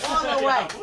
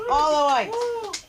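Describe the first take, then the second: First: Said in the usual way. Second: Slow, higher, drawn-out savoring echo; stretched playful repeat of all the whites; mock echo. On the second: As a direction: repeat the comic's phrase slowly to milk the laugh. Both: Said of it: "How did I guess that?".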